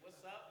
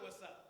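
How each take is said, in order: First: The greeting sounds warm and friendly. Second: The greeting sounds hostile and threatening. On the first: It is a kind, friendly hello. "like, hey, Jesus love you" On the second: It is a challenge to fight. "the other what's up"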